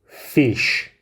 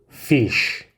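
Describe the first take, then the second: No difference in how they are said.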